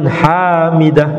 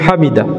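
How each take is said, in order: First: The vowel after the h is long. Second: The vowel after the h is short. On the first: The speaker calls it wrong. "bukan sami Allahu liman hamidah. Tidak ada alif setelah ha" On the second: The speaker calls it right. "mengucapkannya sami Allahu liman hamidah"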